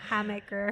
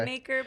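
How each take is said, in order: First: The first vowel sounds like in 'ham'. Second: The first vowel sounds like in 'hay'. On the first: This is how the officials say it. The speaker calls it right. "they they said" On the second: This is the speaker's own habitual version. The speaker calls it wrong. "I keep saying"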